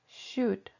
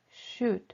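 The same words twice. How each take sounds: No difference in how they are said.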